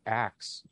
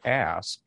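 First: "axe" ending in ks rather than sk; swapped consonants. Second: Said in the usual way. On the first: Shown as a demonstration. Linguist explaining the historical change, "axe" with ks ending. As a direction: say "axe" for ask, k before s. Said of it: "slaves would start to say". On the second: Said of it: "instead of".

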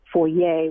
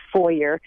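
First: "foyer" as foy-AY, French style; affected French pronunciation. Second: "foyer" as FOY-er, English style; preferred pronunciation. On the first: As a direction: end "foyer" on ay, with no r. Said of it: "which sounds more affected". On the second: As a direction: sound the final r in "foyer". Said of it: "The, the best pronunciation supposedly is". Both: Shown as a demonstration.

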